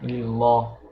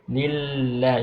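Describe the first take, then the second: First: The L sound is heavy and thick. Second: The L sound is light and thin. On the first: The speaker calls it wrong. "You don't you don't read it like" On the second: The speaker calls it right. "very lenient"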